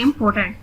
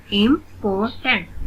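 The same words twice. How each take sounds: First: Said in the usual way. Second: "इंपॉर्टेंट" in three separate beats; split into syllables. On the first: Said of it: "read the word". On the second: Shown as a demonstration. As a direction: break up "इंपॉर्टेंट" with short gaps. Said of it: "split in the syllables". ("इंपॉर्टेंट" को तीन हिस्सों में तोड़कर)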